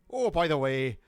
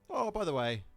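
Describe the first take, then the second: First: It is said in the speaker's usual accent. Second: It is said in an Irish accent.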